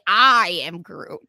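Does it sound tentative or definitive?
tentative. It sounds less definitive, more tentative.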